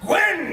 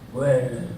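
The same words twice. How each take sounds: First: The name is said brightly and with energy. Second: The name is mumbled low and brooding. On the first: The character is his usual exuberant self. "not like usual" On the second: The character is gritty and introspective. "like mumbling"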